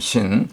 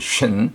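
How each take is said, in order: First: The first consonant has a weaker hiss. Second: The first consonant has a strong hiss. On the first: "그 다음 신" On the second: "더 쇳소리가 나죠. 쇳소리 신"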